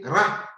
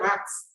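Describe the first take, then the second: First: The final T sound is silent. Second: The final T sound is pronounced. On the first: The speaker calls it right. "you say rat. The T will not sound" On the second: The speaker calls it wrong. "You don't say rats"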